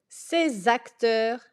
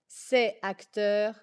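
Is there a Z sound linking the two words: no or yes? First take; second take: yes; no. First: A Z sound links the two words. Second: No Z sound links the two words. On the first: The speaker calls it right. "il faut faire la liaison entre" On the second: The speaker calls it wrong. "et non pas"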